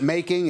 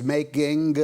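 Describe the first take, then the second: First: Said in the usual way. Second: "making" ending in a sounded hard G; hard final G. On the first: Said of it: "it wasn't making". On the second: Retold or imitated. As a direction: imitate a Mississippi boy's "making", popping the final G. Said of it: "this hard G at the end".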